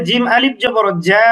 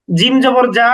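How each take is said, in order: First: Final "জা" held long; madd elongation. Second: Said in the usual way. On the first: Shown as a demonstration. Teacher adding alif to jim, "জা" stretched. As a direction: draw out the vowel of "জা". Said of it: "এর সাথে আলিফ যুক্ত হলে অনুরূপভাবে". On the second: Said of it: "হরকতের উচ্চারণে কোনো টান হয় না".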